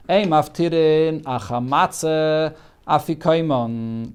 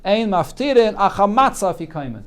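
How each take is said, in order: First: Slow, drawn-out reading through to "afikoimon"; read as open query. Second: Higher, firm reading, "afikaiman" falling at the end; read as statement. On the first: Reading the Gemara to students as a possible question, "afikoimon" drawn out. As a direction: stretch each word up to "afikoimon", leaving it open. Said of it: "he didn't say it as a question". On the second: Rereading the Gemara to students as a statement, falling on "afikaiman". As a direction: state it without dragging, settle down on "afikaiman". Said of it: "he said it as a statement".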